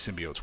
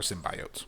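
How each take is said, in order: First: "symbiotes" said as sim-bee-ohts; alternate pronunciation. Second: "symbiotes" said as sim-bye-ohts; alternate pronunciation. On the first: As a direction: say "symbiotes" with an ee in the middle. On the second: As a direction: say "symbiotes" with an eye sound in the middle. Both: Shown as a demonstration. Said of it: "or symbiotes".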